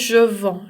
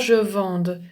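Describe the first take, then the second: First: The word ends on the vowel, no d sound. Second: The word ends with an audible d sound. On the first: The speaker calls it right. "on ne prononce pas le d. Je dis je vends" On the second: The speaker calls it wrong. "je dis pas je vende"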